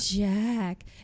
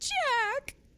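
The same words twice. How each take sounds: First: It is said in Lana's breathy voice. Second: It is said in Chrissy's clear, unbreathy voice.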